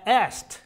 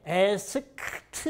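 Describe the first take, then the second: First: The middle k sound is left out. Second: The middle k sound is clearly pronounced. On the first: The speaker calls it right. "에스트 바로 들어가라는 얘기죠" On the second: The speaker calls it wrong. "에스크트 이렇게 하는 게 아니고"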